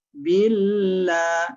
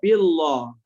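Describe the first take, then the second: First: The L sound is light and thin. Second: The L sound is heavy and thick. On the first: The speaker calls it right. "La-nya kita baca tipis ya" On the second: The speaker calls it wrong. "Enggak boleh kita baca billah"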